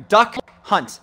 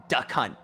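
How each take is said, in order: First: "Duck Hunt" said louder with a crisp D; clear correction. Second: "Duck Hunt" mumbled low and soft, the D swallowed; mumbled mispronunciation. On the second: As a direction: slur "Duck Hunt" quietly so it sounds wrong. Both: Real, not acted. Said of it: "Oh, sorry".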